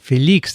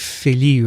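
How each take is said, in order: First: The name ends with an x sound. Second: The name ends without an x sound. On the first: This is the Spanish way of saying the name. "they pronounce the X" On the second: This is the French way of saying the name. "if it were French, it would be Feli"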